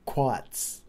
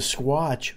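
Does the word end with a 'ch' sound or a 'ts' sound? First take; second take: ts; ch. First: The word ends with a 'ts' sound. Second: The word ends with a 'ch' sound. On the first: This is the original Native pronunciation of the name. The speaker calls it right. "But the squatch was quats" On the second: This is the changed, English version of the name. The speaker calls it wrong. "Is not the way the Indians really pronounced it"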